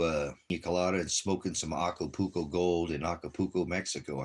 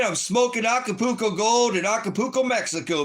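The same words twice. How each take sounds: First: Said in the usual way. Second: Much higher and louder, hyped-up boast; mock vacation hype; excited livestreamer. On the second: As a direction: brag to the camera like a partying tourist. Pretends to livestream from Mexico.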